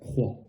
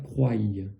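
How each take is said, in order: First: It ends on the vowel with no y-sound. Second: It ends with an added y-sound after the vowel. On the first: The speaker calls it right. "on n'a pas besoin du, du Y. Et on va dire croix" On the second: The speaker calls it wrong. "ne pas dire croille"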